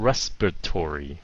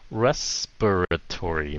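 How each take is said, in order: First: The word is said quickly and compressed. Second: The word is said at an ordinary pace.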